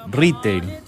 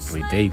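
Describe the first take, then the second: First: The stress is on the first syllable. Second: The stress is on the last syllable.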